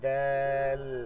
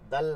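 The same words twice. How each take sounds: First: The vowel is stretched out a little. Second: The vowel is short, without stretching. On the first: The speaker calls it right. "একটু টান দিয়ে বলবো" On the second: The speaker calls it wrong. "দাল না"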